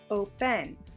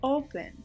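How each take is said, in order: First: The stress is on the second syllable. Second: The stress is on the first syllable. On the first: The speaker calls it wrong. "not on the vowel E that is in between the two consonants. It's not open" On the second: The speaker calls it right. "my stress is on that first vowel"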